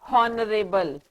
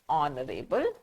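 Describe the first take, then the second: First: The word begins with an h sound. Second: The word begins with a vowel sound. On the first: The speaker calls it wrong. "It is not honorable" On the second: The speaker calls it right. "It is aw"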